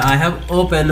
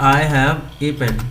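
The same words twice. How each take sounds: First: Said in the usual way. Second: Slow reading. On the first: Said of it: "हम इसे pronounce करेंगे". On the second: Shown as a demonstration. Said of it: "तो मैंने लिख दिया".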